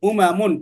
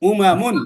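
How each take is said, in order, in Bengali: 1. শব্দের স্বরধ্বনিগুলো ছোট রাখা হয়েছে। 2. শব্দের স্বরধ্বনিগুলো ছোট রাখা হয়েছে।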